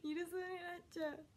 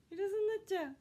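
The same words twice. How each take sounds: First: Laughing it off, a bit higher; amused laughing repeat. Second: High, loud flustered wail; panicking that the parcel will be missed; loud high panicked cry. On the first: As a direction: giggle through the worry. Laughs at her own panic. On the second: Panics about missing the delivery. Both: Real, not acted.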